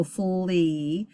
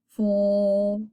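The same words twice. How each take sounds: First: Full E with a long ee at the end; open syllable reading. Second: Full as one held syllable ending on L; consonant L E reading. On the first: Teacher showing the open syllable reading, full E with long ee. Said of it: "look like an open syllable". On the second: Teacher reading a consonant L E syllable, stretched full. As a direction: draw out full, no E sound at the end. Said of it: "it's a consonant L E". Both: Shown as a demonstration.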